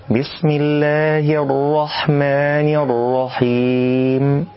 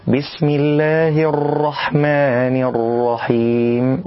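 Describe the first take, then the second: First: الرحيم with one light r tap, slow chant; single-tap ra recitation. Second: الرحيم with the r trilled repeatedly; over-roll the ra in الرحيم. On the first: Teacher recites the correct ra. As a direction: hide the trill in الرحيم. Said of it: "الصواب إخفاء صفة التكرير". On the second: Teacher shows the wrong rolled ra. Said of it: "فلا نقول". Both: Shown as a demonstration.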